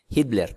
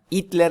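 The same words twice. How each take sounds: First: The name is said with a Spanish pronunciation. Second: The name is said with an Italian pronunciation. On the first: "como le dicen en, en España" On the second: "le dicen en Italia"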